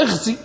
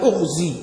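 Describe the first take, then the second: First: اغزي begun with an "i" sound, ighzi; اغزي pronounced "ighzi", i on the first letter; kasra on the hamza. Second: أغزي begun with a "u" sound, ughzi; أغزي pronounced "ughzi", u on the first letter; damma on the hamza. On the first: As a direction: open اغزي with a short i. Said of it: "مكسورة". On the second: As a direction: open أغزي with a short u. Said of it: "والزين أصلها مضمومة". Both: Shown as a demonstration.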